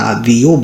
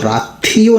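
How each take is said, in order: First: The second syllable starts with a soft d sound. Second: The second syllable starts with an aspirated th sound. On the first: The speaker calls it right. "रादियो बोलना है" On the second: The speaker calls it wrong. "राथियो नहीं पढ़ना है इसको, ये थ नहीं बोलना है, थ गलत हो जाएगा"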